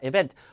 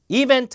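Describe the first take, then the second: First: It is said as an English word. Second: It is said as a Korean loanword. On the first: The speaker calls it right. "event입니다" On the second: The speaker calls it wrong. "이벤트 아니라"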